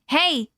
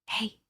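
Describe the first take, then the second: First: It is said loudly and aggressively. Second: It is whispered softly.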